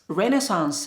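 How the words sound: It is said with an American pronunciation. "Renaissance is American English"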